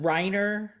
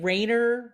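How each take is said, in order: First: The first vowel is an eye sound. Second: The first vowel is an ay sound. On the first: "I've gotten" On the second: "But I get"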